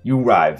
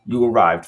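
First: It is said in a plain, ordinary voice. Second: It is said in a put-on, dramatic voice.

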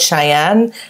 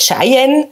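First: The name is pronounced in an English style. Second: The name is pronounced in a Basel German style. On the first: This is how the father always said it. "so würde man es sagen, oder so hat es mein Vater immer gesagt" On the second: This is how the mother says it. "meine Mutter ist Baslerin und sagt Cheyenne"

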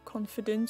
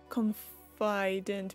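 First: It sounds just like the word confident. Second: It sounds built on the word confide. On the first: "Is it pronounced the same as confident, like being sure about yourself?" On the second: "Or is it like confident because you're confiding in someone"

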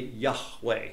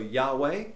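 First: The middle consonant is guttural, with throat friction. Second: The middle consonant is soft, without throat friction. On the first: This is likely how the name was originally said. "more than likely Yahweh would have been the name of God" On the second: This is how Westerners usually say it. "we in the West don't use the guttural sound"

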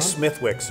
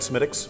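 First: The middle w sound is pronounced. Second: The middle w sound is silent. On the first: The speaker calls it wrong. "Don't say Smithwick's" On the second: The speaker calls it right. "So the W is I'm almost not there at all"

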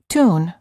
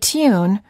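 First: The vowel is a plain 'oo' with no 'y' sound before it. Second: The vowel has a 'y' sound before the 'oo'. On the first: This is the American pronunciation. "rather than tune" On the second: This is the British pronunciation. "you may have learned to say tune"

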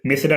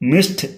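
First: The ending is said as a separate syllable. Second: The ending is said as a short t sound. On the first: The speaker calls it wrong. "మిస్డ్ అనకూడదు" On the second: The speaker calls it right. "మిస్డ్ అనాలి"

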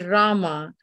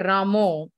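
First: The word ends with an 'ah' vowel. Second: The word ends with an 'oh' vowel. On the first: The speaker calls it right. "and it should be Rama" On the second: The speaker calls it wrong. "I've heard people say, you know, when they come to the point of Rama, they say Ramo"

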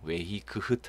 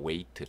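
First: It is said with a g-like sound. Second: It is said with no g-like sound. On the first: The speaker calls it wrong. "아닙니다" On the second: The speaker calls it right. "지에이치는 발음되지 않아요"

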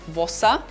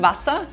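First: The first vowel sounds like an o. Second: The first vowel sounds like a clear a.

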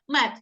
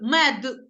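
First: The final consonant sounds like a voiceless t. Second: The final consonant is a clear voiced d. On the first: "якщо швидко сказати" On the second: "Чітко ми чуємо з вами д"

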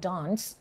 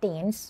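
First: It is said with a British accent. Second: It is said with an American accent. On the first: "ถ้าคนอังกฤษจะอ่านว่า" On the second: "คนอเมริกันจะอ่านว่า"

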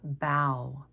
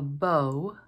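First: The vowel rhymes with 'cow'. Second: The vowel rhymes with 'low'. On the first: It is bending forward at the waist. "If we're talking about someone who's bowing at the waist, we call it bow" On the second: It is a ribbon tied on a package. "if we're talking about a ribbon that's tied on a package, we'll call it a bow"

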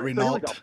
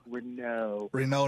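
First: The name is said an English way. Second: The name is said the French way. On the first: The speaker calls it wrong. "not Renault" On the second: The speaker calls it right. "It's French"

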